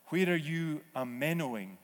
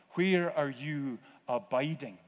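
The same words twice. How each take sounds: First: 'amenoing' said as a-MEN-o-ing, the Greek meno with an English ending; playful Greek 'amenoing'; Greek verb blended in. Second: Said in the usual way. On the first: Shown as a demonstration. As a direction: swap in 'amenoing' to show the Greek word. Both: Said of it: "that's the word in the Greek".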